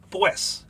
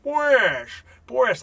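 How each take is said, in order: First: "pues" said short and flat as one plain syllable; direct pues. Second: "Pues, pues" much higher and louder, falling sing-song. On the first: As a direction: say "pues" straight and literal. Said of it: "I've said it very direct and literal". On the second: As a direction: sing "Pues, pues" like the Penguin or Cagney. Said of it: "sing-song translation". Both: Shown as a demonstration.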